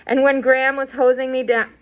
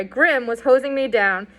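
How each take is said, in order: First: "Graham" read by mistake, said as gray-um; the name "Graham" read aloud in error, before the correction; misread name. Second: "Grim" said as one short syllable, grim; corrected name. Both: Real, not acted. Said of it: "sorry, Grim was hosing me down".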